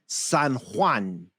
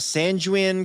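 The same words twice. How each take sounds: First: It is said with a Spanish-style pronunciation. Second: It is said with an English-style pronunciation. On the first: The speaker calls it right. "Say it with me" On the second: The speaker calls it wrong. "I started to speak Spanish the wrong way"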